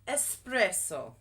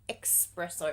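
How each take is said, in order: First: The word begins with an 'es' sound. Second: The word begins with an 'ex' sound. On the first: The speaker calls it right. "it's espresso. E S" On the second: The speaker calls it wrong. "It's not espresso"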